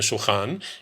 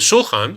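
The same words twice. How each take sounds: First: The stress is on the last syllable. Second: The stress is on the first syllable. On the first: It means any sort of table. "in regular Israeli" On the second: It means the raised table in a synagogue. "that back movement there goes to the first syllable"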